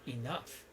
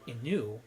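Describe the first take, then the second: First: The word ends with an f sound. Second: The word ends in a vowel, like 'through'. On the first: The speaker calls it right. "you pronounce it enough" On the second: The speaker calls it wrong. "you don't pronounce E N O U G H like enu"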